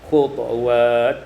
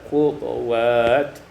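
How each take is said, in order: No difference in how they are said.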